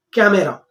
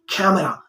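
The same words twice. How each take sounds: First: "camera" as many in India say it; common Indian pronunciation. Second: "camera" said carefully the proper way; proper pronunciation. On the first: Teacher quoting how most people say it, mispronounced "camera". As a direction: demonstrate the common mispronounced "camera", set apart and loud. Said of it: "they pronounce like". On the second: Teacher correcting learners' pronunciation, properly said "camera". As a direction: model the corrected "camera", stressed on its first syllable. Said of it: "You have to pronounce it, uh, properly". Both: Shown as a demonstration.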